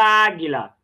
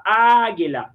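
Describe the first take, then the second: First: Said in the usual way. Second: ÁGUILA with a long, drawn-out ÁÁ; stress on first syllable. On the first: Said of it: "A palavra águila". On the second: Shown as a demonstration. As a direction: call "águila" as if to someone far away, stretching the first A. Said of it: "Só dizer pra quem tá longe".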